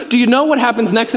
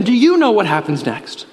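First: Said in the usual way. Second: "you" stressed to turn the question on the listeners. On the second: Real, not acted. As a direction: lean on "you", then let the pitch fall. Turns the question on the congregation.

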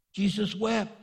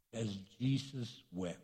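First: Higher, firmer "Jesus wept"; emphatic verse reading. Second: Very soft, low and grave; hushed verse reading. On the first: Preacher repeats "Jesus wept" to the congregation, lifted and emphatic. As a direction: lift "Jesus wept" out clearly at full voice. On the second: Preacher reads the shortest verse to the congregation, hushed. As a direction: let it drop to a hush. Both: Real, not acted.

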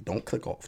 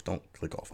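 First: Said in the usual way. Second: "Don't click off" repeated lower and much softer; a quieter pleading echo of "Don't click off". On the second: Shown as a demonstration.

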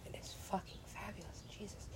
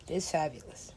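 First: Barely audible whisper, much softer, stress on fabulous; almost silent, reverent whisper that stresses fabulous; awed whisper. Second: Hushed, marvelling whisper; awed whisper. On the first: Gamer gushing over the headdress, near-silent whisper. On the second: Gamer marvelling at a character's headdress, awed whisper. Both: Real, not acted.

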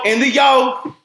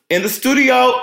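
First: "yo" tossed off high and loud, clipped slang; slangy. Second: High, hyped-up "studio"; excited. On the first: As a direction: clip "studio" down to a cool "yo". Slangy clipped repeat of studio. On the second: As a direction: sing out "studio" high and loud. Teasing echo of studio line. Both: Pretend.

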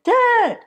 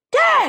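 First: High, loud holler up the stairs; calling out. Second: Even higher, louder holler; louder call. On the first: From the couch, hollering up to her napping dad. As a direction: call him from another floor. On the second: No answer from dad, hollering up at him again louder. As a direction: call again, pushing harder since he didn't answer. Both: Retold or imitated.

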